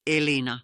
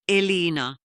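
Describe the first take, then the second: First: Understated defeated murmur. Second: Elina snapped louder in rage; mock-angry call of her name; furious. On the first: Acted. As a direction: say her name like a lost little boy. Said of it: "kuulostaa nyt pieneltä pojalta". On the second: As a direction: bark the name out in fury. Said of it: "Raivo vaihtuu peloksi".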